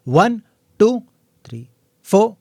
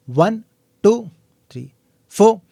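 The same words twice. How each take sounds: The two takes are said the same way.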